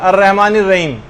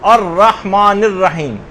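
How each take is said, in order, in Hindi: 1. h की आवाजें सामान्य और हल्की हैं। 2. h की आवाजें तेज़ और गले से निकलने वाली हैं। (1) "ये नहीं पढ़ना, आमतौर पे लोग इसी तरह से पढ़ते हैं" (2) "बल्कि आपको"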